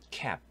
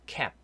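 Both takes have the same delivery.

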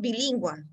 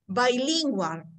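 First: The word is pronounced with Spanish sounds. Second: The word is pronounced with English sounds. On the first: The speaker calls it wrong. "it's not bilingual. Bilingual is in Spanish" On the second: The speaker calls it right. "we can say bilingual"

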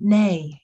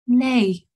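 First: It is said in the speaker's normal voice. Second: It is said in a put-on accent.

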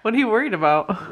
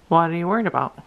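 First: It sounds natural, like real conversation. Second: It sounds flat, as if read from a script.

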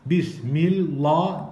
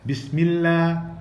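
First: The lam and final a sound thick and dark. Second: The lam and final a sound thin and light. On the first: The speaker calls it wrong. "Bismillah demiyoruz" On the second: The speaker calls it right. "Bakın şapkalı A gibi kullanıyoruz"

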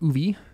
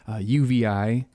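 First: The name is said as one word. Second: The name is spelled out letter by letter. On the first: The speaker calls it wrong. "I've been saying it wrong for years" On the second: The speaker calls it right. "I learned recently"

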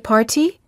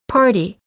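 First: The T is a crisp, released T sound. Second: The T is a quick, soft D-like sound. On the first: The speaker calls it wrong. "we don't say party" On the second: The speaker calls it right. "we say party"

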